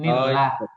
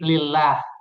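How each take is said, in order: First: The word starts with an N sound. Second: The word starts with an L sound. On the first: The speaker calls it right. "padahal harusnya ni, nillah" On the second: The speaker calls it wrong. "Ada sebagian kesalahan membaca di ayat keduanya terdengarnya seperti lillah"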